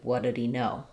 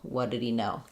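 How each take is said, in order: No difference in how they are said.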